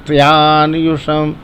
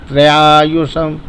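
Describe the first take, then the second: No difference in how they are said.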